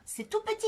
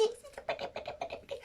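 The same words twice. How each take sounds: First: Squeaky little voice, much higher, to show how small; tiny voice. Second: High breathy whisper fading to nothing; whispered tiny. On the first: Explaining tiny peptides to the girls, in a squeaky high voice. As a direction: make it sound tiny and cute. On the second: Explaining tiny peptides, fading into a whisper. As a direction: shrink the voice away as the words get smaller. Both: Shown as a demonstration.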